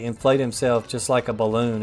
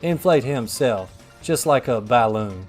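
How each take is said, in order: First: Balloon is pronounced in the ordinary way. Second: Balloon is pronounced oddly, almost like 'Baloo'. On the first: "he doesn't say inflate himself just like a balloon" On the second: "It's like inflate himself just like a balloon"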